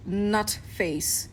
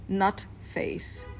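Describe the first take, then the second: First: Said in the usual way. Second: Nutface whispered, no voice. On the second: Shown as a demonstration. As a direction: whisper the nickname Nutface like a secret. Nickname repeated, then whispered.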